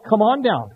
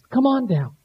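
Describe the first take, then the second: First: It is said in a stern, demanding tone. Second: It is said in a kind, gentle tone.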